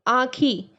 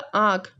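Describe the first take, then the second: First: The word ends with an added final vowel. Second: The word ends on a final consonant. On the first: This is a regional spoken form. "आँखी का सही हो जाएगा आँख" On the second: This is the standard form. "सही हो जाएगा"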